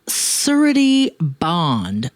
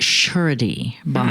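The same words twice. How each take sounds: First: Surety begins with a plain s sound. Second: Surety begins with an sh sound.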